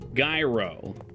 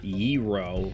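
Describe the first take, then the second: First: The word begins with a clear G sound. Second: The word begins with a Y-like sound. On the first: The speaker calls it right. "there's a big G there" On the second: The speaker calls it wrong.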